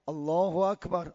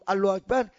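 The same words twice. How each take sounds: First: The phrase is said slowly and calmly. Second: The phrase is said quickly and hurriedly. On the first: The prayer is started with calm and dignity. The speaker calls it right. "خیلی با طمأنینه و وقار و آرام آرام" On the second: The prayer is started without proper composure. The speaker calls it wrong. "همینجور از راه رسیدن ... این خوب نیست"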